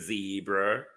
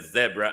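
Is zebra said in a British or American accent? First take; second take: American; British. First: It is said the American way. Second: It is said the British way.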